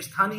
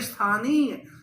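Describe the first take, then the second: First: The middle vowel is short. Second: The middle vowel is long. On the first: The speaker calls it wrong. "मैक्सिमम लोग स्थानीय को स्थानीय बोल देते हैं" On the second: The speaker calls it right. "यहां पर तो दीर्घ स्वर है"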